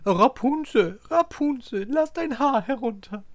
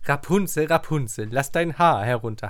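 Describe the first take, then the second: First: It is said imitating the fairy's voice. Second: It is said in the speaker's normal voice.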